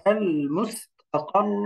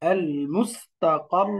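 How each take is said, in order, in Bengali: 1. শব্দটি দ্বিত্ব 'r'-এর উপর টেনে থামে। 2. শব্দটি দ্বিত্ব 'r'-এর উপর টেনে থামে।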